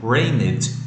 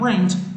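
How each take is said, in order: First: The ending is distorted into an extra syllable. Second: The word ends with only a soft d sound. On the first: The speaker calls it wrong. "Olha que estranho. Rained. Não" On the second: The speaker calls it right. "só o som de demudo"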